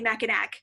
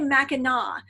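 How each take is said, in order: First: The name is pronounced the way it is spelled. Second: The name is pronounced differently from its spelling. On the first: The speaker calls it wrong. "I would say Mackinac because I'm like, that's what it looks like" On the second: The speaker calls it right. "but it's actually Mackinac"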